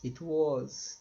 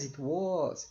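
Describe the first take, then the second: First: "Was" is said in its full strong form. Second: "Was" is reduced and unstressed.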